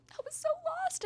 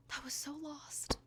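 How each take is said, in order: First: Gushing fangirl squeal, much higher. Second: Whispered. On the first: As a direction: squeal it up very high and excited. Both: Acted. Gushing about a book character.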